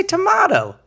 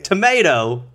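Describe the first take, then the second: First: Tomato with a broad AH in the middle. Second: Tomato with a long AY in the middle. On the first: Answering what they call the red thing, tuh-MAH-toe. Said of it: "I say tomato". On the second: Puzzling over the two words, tomato as tuh-MAY-toe. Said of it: "That's so weird". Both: Shown as a demonstration.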